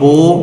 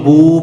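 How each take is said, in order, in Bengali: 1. স্বরধ্বনিটি একটি বিবৃত 'oh' ধ্বনি। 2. স্বরধ্বনিটি একটি বদ্ধ 'oo' ধ্বনি। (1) "যদি ওকার উচ্চারণ করে তাহলে এটা মজহুল হয়ে যাবে, যেটা পড়া নিষেধ" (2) "মারুফ পড়লে ... বা ওয়াও পেশ বু পড়তে হবে"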